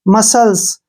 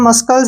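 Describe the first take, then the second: First: No k sound is heard before the l. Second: A k sound is heard before the l. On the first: The speaker calls it right. "सी हमने छोड़ देना है" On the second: The speaker calls it wrong. "इसको हम मस्कल्स नहीं पढ़ेंगे"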